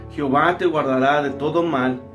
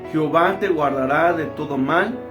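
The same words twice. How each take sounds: The two takes are said the same way.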